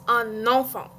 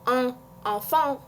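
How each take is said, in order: First: The N is pronounced, linking into enfant. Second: The N is not carried over to enfant. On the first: The speaker calls it right. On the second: The speaker calls it wrong. "Or not"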